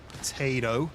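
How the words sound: It is said in an American accent.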